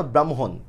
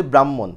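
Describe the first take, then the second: First: ব্রাহ্মণ as "bram-hon", with audible h; correct pronunciation. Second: ব্রাহ্মণ as "brammon", doubled m; common mispronunciation. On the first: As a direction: sound an h after the m in ব্রাহ্মণ. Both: Shown as a demonstration. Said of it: "উচ্চারণ তো ব্রাহ্মণ না".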